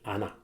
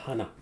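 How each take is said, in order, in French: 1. Le mot commence directement par une voyelle. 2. Le mot commence par un h soufflé. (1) "il n'y a pas de H" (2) "C'est pas hana"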